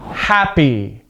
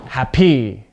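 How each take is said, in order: First: HAPpy, "Happy" stressed at the front; stress on first syllable. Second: HapPY, "Happy" rising onto a punched last syllable; low start, voice jumps up on PY in "Happy"; stress on second syllable. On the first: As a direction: hit the first syllable of "Happy", falling away. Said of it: "that's with the stress at the beginning". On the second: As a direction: wrongly stress the end of "Happy". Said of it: "voice goes up at the second part". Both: Shown as a demonstration.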